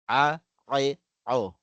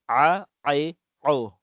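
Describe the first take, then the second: Both takes have the same delivery.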